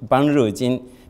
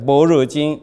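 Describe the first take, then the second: First: The first syllable is pronounced ban. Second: The first syllable is pronounced bo. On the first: This reading follows the early Gandhari pronunciation. The speaker calls it right. "It should be read Ban Re Jin" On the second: This is the later dictionary reading. The speaker calls it wrong. "all of them are wrong"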